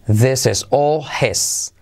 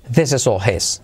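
First: Slow model sentence. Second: Said in the usual way. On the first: Shown as a demonstration. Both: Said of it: "Esto es todo de él".

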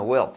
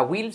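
First: WILL close to "well", heavy L; strong-L will. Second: WILL with a plain I sound; wrong will. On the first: Teacher giving students the right form, E-like WILL. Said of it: "haz la L fuerte". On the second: Teacher contrasting for students, WILL with plain I. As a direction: say WILL with I, no E colour. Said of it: "no te saldrá will". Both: Shown as a demonstration.

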